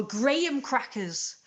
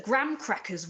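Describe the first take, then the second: First: Graham said as "GRAY-um"; Graham with long AY, then um; British Graham pronunciation. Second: Graham said as "gram"; graham rhyming with ham; American graham pronunciation. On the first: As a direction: say Graham in two syllables, gray-um. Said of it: "It's pronounced Graham". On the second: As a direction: say graham as one syllable, like gram. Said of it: "Americans pronounced it Graham". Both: Shown as a demonstration.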